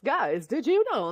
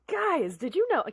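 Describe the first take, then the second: First: It is said in a fifties announcer voice. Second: It is said in her normal voice.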